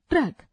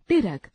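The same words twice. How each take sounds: First: Said in the usual way. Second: ट्रक said as टिरक with a vowel inside the cluster; wrong pronunciation. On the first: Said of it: "शुद्ध उच्चारण". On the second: Shown as a demonstration. Teacher demonstrating the incorrect form to students, deliberately wrong. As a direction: break ट्र into टिर: टिरक. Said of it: "अशुद्ध उच्चारण".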